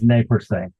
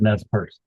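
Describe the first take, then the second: First: The name is given its French pronunciation. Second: The name is given its American pronunciation. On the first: "It's in French" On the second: "Americans pronounce it"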